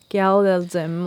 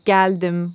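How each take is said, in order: First: It is said with an American accent. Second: It is said with a native Turkish accent. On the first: The speaker calls it wrong. "they would literally pronounce Turkish words with, like, an American" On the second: The speaker calls it right. "instead of saying geldim"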